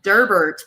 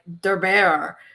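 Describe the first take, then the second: First: The name is said in an English-style way. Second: The name is said in a French-style way. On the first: This is how the reader pictured it while reading. "when I was reading it" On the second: This is how the audiobook narrator said it. "it would be like Derber"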